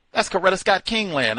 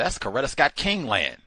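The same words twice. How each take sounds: First: Much higher and louder, Scott punched; louder emphatic. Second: Firm statement, louder; emphatic. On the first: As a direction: ram it home, pitched way up. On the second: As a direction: insist on it. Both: Shown as a demonstration. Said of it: "repeated louder".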